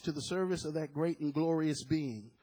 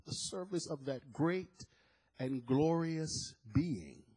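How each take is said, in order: First: Said in the usual way. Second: Drawn-out, weighty "great and glorious being"; slow savouring. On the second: Shown as a demonstration. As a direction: linger on every word, very slow. Repeats phrase slowly to savour it.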